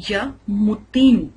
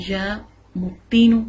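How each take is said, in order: No difference in how they are said.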